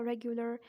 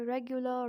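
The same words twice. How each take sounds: First: American "regular" ending in a clear R; American-accent demo of regular. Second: British "regular" with no final R; British-accent demo of regular. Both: Shown as a demonstration. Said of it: "and the same way".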